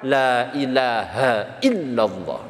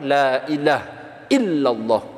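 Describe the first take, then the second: First: The phrase runs on without any pause. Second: There is a pause within the phrase. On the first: "Kalau mau enggak diwakafkan" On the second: "Kalau misalkan mau diwakafkan"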